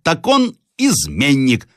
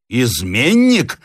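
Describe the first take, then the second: First: High, slow, deliberate verdict; accusing. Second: Slow, drawn-out indignant question. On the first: Acted. Retired soldier declaring the captive a traitor, accusing. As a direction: pronounce the charge with weight. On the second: A narrator's reading. Captive repeating the soldier's accusation, indignant. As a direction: repeat the charge in offended disbelief, voice raised in pitch. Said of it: "повторил с негодованием Рославлев".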